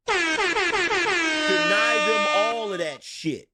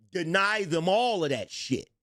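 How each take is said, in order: First: Slow, loud, higher with echo effect; echoed emphatic repeat. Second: Said in the usual way. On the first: Acted. Streamer repeats his point with a booming echo. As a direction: drag it out like a dramatic echo.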